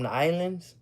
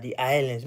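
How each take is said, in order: First: Said in the usual way. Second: Imitated island accent on "the islands"; Jamaican accent. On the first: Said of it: "different accents". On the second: Shown as a demonstration. Praising island speech, put-on Jamaican accent.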